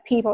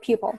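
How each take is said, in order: First: The first vowel is a plain 'ee' sound. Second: The first vowel is a 'yoo' sound. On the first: The speaker calls it right. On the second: The speaker calls it wrong. "It's not pupil"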